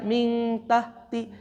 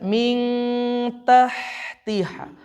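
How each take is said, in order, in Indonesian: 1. Bunyi h longgar dan tidak diletakkan di tenggorokan. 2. Bunyi h ditekan kuat di tengah tenggorokan. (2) "pastikan dikenain betul-betul ke tengah-tengah tenggorokan"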